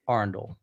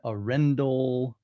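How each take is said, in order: First: The name is run together like one word. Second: The name is said in separate distinct parts. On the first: The speaker calls it right. "It's kind of like one word" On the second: The speaker calls it wrong. "originally I used to say"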